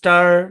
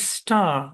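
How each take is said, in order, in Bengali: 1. শেষের r ধ্বনিটি উচ্চারিত হয়। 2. শেষের r ধ্বনিটি নীরব। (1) "আমেরিকান।" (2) "এটা হচ্ছে ব্রিটিশ।"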